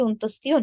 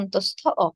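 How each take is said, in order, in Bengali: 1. নামটি 'stiyo' ধ্বনি দিয়ে শেষ হয়। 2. নামটি 'stho' আর আলাদা একটি 'o' দিয়ে শেষ হয়। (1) "আসলে এটি অন্তস্তীয় নয়" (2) "এর সঠিক উচ্চারণ হবে অন্তঃস্থ অ"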